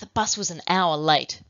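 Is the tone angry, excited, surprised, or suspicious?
angry. The sentence is said in an angry tone. "with the angry emotion"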